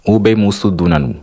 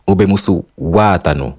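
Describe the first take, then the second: First: "Ube musu dunanu" said with dunanu for water; Honduran Garifuna phrase. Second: "Ube musu watanu" with English-borrowed watanu; careful demo of "Ube musu watanu"; Belize Garifuna phrase. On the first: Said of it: "moi, je dirais". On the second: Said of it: "Eux, ils diraient". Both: Shown as a demonstration.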